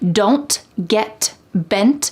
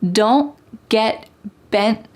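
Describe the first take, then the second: First: The T sounds are fully released with air. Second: The T sounds are stopped without releasing air. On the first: "it's not wrong to say" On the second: "All of these T's are what we call stopped T's"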